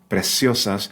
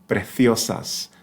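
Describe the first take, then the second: First: The middle consonant is a hissing s sound. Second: The middle consonant is a soft th sound. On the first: This is how most Spanish speakers say it. "where it's pronounced in ninety percent of the Spanish-speaking world" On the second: This is how it is said in parts of Spain. "in parts of Spain, it's going to be that T H"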